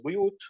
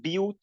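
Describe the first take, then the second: First: "بُيُوتٍ" starting with a u vowel, buyut; rounded first vowel in "بُيُوتٍ"; Hafs reading. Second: "بِيُوتٍ" starting with an i vowel, biyut; unrounded i at the start of "بِيُوتٍ"; Shu'bah reading. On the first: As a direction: say "بُيُوتٍ" with damma on the first letter. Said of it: "Imam Hafs, which is our Imam". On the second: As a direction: say "بِيُوتٍ" with kasra on the first letter. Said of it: "Shu'bah, he said". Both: Shown as a demonstration.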